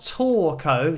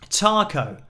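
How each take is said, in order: First: The first syllable sounds like 'tor'. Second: The first syllable sounds like 'tar'. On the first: The speaker calls it wrong. "So not Torco" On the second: The speaker calls it right. "that's how I would say it in English"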